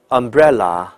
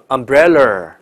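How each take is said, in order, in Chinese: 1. 结尾没有 r 音。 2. 结尾是卷舌 r 音。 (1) "无论英音还是美音都不能卷，所以这个词应该叫umbrella" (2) "很多人就把它读成umbrella。舌头就卷起来"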